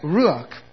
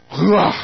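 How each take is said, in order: First: It is said softly, with plain English sounds. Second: It is said with rough throaty sounds and breathy ending.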